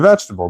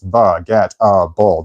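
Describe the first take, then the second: First: The word is said smoothly in normal everyday form. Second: The word is spelled out with hard breaks between syllables. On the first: This is how the word is normally spoken aloud. "When I say it, I, I say vegetable" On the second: This is how the word sounds in the mind while writing it. "in my head, when I'm writing it, it's baguette-able. There is a hard stop"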